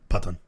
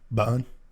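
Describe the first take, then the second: First: The middle T is clearly pronounced. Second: The middle T is dropped. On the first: "With don't say the T" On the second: "Yeah, that's that's right"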